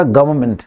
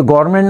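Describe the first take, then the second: First: गवर्नमेंट run together, with the n silent; correct pronunciation. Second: गवर्नमेंट with the n said, the wrong version; wrong way shown. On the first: Teacher gives students the right गवर्नमेंट with silent n. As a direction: say गवर्नमेंट smoothly and drop the n. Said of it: "एक साथ बोलोगे तो नए silent हो जाएगा". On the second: Teacher shows students how not to say गवर्नमेंट. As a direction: say गवर्नमेंट with a full n, as the wrong model. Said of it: "ये गवर्नमेंट नहीं होता है". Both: Shown as a demonstration.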